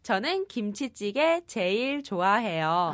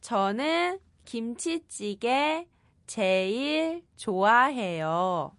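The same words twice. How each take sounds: First: It is said at a faster pace. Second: It is said at a slower pace.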